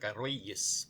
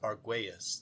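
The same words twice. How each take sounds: First: The name has its original Spanish pronunciation. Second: The name has an anglicized family pronunciation. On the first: This is the original form of the name. "That's not the original uh, Spanish spelling of it. Has a diaresis" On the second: This is how the family says it. "the way my family's always said"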